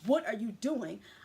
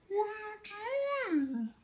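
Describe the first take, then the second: First: It is said rudely, with attitude. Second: It is said sweetly, like a princess.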